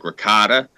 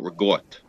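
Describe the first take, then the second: First: The word is said with an American pronunciation. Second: The word is said with an Italian-dialect pronunciation. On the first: The speaker calls it wrong. "pronounced as badly as" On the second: The speaker calls it right. "in my house, we uh, call it"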